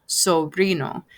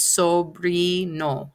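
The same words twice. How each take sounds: First: Said in the usual way. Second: "sobrino" slowly broken into so-bree-no; "sobrino" sounded out slowly for learners; syllable by syllable. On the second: Shown as a demonstration. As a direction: stretch each pure vowel in "sobrino". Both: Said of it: "pronouncing the vowels just like that".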